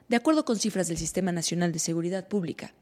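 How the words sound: It is said in a flat, bored newsreader way.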